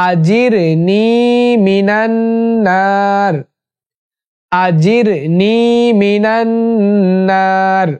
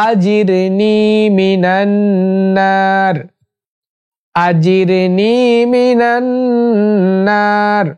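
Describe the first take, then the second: The two takes are said the same way.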